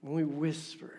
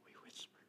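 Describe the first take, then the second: First: Said in the usual way. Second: Hushed unvoiced whisper on whisper; preacher whispering the word whisper. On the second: Shown as a demonstration. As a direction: breathe the words we whisper.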